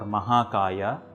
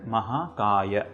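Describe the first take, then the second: First: The final a vowel is drawn out long. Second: The final a vowel is kept short. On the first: The speaker calls it wrong. "not long dirgha sounds like" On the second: The speaker calls it right. "short or hrasva sounds like"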